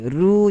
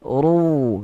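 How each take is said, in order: First: The r syllable is said thin and light. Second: The r syllable is said thick and heavy. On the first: The speaker calls it wrong. "Ru tidak tebal" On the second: The speaker calls it right. "Ru itu yang tebal"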